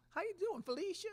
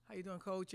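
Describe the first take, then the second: First: Imitating a Southern accent, pitched much higher and louder; Pat Summitt's Southern accent. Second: Said in the usual way. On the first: Coach imitating Pat Summitt greeting her with a Southern accent. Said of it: "It was a beautiful Southern accent". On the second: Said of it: "I said".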